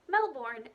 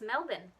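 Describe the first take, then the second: First: It is pronounced the way Florida locals say it. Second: It is pronounced the way Australians say it. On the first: It names the town in Florida. "Melbourne is a place in Florida" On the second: It names the city in Australia. "It's Melbourne in Australia"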